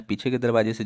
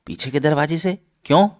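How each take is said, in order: First: Said in the usual way. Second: High, rising disbelief; surprised echo question. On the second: Acted. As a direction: echo it back as a puzzled question. Grandfather echoes her in disbelief.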